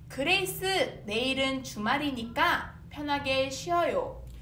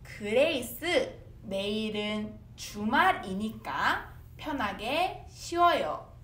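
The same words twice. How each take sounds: First: The sentence is said fast. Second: The sentence is said slowly.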